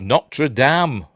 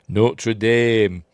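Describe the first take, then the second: First: It is pronounced the British way. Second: It is pronounced the American way.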